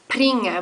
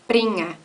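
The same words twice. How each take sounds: First: It starts with a p and a puff of air. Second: It starts with a soft unvoiced b without breath. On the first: The speaker calls it wrong. "which would be an aspirated P" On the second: The speaker calls it right. "you have an unvoiced B in Swiss German"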